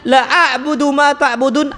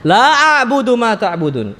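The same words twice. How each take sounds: First: The vowel in 'la' is cut short. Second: The vowel in 'la' is held long. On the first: I surely worship what you worship. The speaker calls it wrong. "alifnya dihilangkan" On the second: I do not worship what you worship. The speaker calls it right. "Aslinya apa?"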